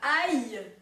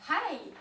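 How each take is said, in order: First: It begins directly with the vowel, no h. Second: It begins with a breathy h sound. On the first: The speaker calls it wrong. "Dites pas aïe, sauf si vous avez un accent pourri" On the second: The speaker calls it right. "il faut l'aspirer, comme dans Hi"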